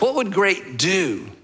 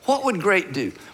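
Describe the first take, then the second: First: The emphasis falls on the word do. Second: The emphasis falls on the word great. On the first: Taking action is what matters. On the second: Being great is what matters.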